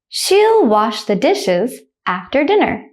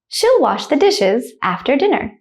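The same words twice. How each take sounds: First: The sentence is said slowly. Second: The sentence is said quickly. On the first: "The first time I will say it slowly" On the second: "the second time I will say it quickly, like a native speaker"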